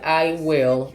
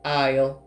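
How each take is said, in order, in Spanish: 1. Las dos palabras completas se dicen por separado. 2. Las dos palabras se contraen en una sola sílaba. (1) "decir eso de manera completa" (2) "yo puedo decir"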